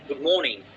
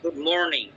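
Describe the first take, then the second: First: It is said in a British accent. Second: It is said in an American accent.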